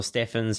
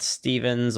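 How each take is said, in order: First: Steffens said with a short E and an F; alternative pronunciation. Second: Stevens said with a long EE and a V; alternative pronunciation. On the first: Offering viewers another way to say a sponsor, Steffens as STEFF-enz. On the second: Offering viewers one way to say a sponsor, Stevens as STEE-venz. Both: Shown as a demonstration. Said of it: "however you wanna pronounce that".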